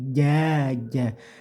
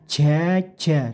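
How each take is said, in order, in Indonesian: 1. j ditekan dengan udara yang sangat sedikit. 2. j dilepas dengan embusan udara. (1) "tapi jaja ... seminimal mungkin anginnya yang keluar" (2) "jangan membaca jaja"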